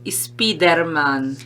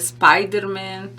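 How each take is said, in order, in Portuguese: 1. É dito com sotaque espanhol. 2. É dito com sotaque do português brasileiro. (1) "eles falam" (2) "a gente no Brasil fala"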